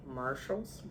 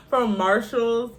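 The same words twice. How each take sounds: First: Soft, unsure "Marshalls?" with a rise; second-guessing the store name "Marshalls?"; doubtful question. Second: "From Marshalls" said high, loud and slow; firm correction. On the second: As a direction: correct yourself, landing hard on "From Marshalls". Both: Real, not acted. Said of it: "Listen to me".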